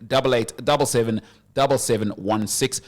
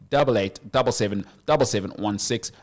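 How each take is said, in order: Both takes have the same delivery.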